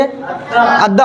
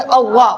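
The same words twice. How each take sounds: First: अद्दा thin and light, drawn out slowly; आराम से. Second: अव्वा heavy and rounded, towards "aw"; मोटी आवाज. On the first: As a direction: stretch an easy, unrounded अद्दा. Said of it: "आराम से बोलेंगे।". (अद्दा को आराम से, खींचकर) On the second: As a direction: fill the mouth on अव्वा. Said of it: "मोटा करके पढ़ेंगे". (अव्वा को मोटी आवाज़ में) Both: Shown as a demonstration.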